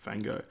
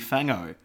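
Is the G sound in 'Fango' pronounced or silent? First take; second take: pronounced; silent. First: The G sound is pronounced after the ng. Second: The G sound is left silent after the ng.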